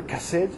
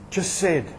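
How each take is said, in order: First: "Chesed?" retried with a hard k start, much softer, rising; "Chesed?" begun with a k sound, asked quietly; corrected Hebrew word. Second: "Chesed" said with a "ch" as in church, soft and falling; "Chesed" started like church, quiet, unsure; Hebrew word attempt. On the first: Preacher retrying "Chesed?" after admitting he says it wrong, questioning. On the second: Preacher first sounding out "Chesed" for the congregation, with a "ch" like church. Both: Shown as a demonstration. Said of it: "I'm not saying it right in Hebrew".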